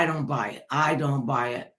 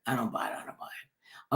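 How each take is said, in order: First: Said in the usual way. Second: I don't buy it whispered, much softer, breath only. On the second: Real, not acted. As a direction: let the words fade to a bare whisper. Repeating the phrase, fading.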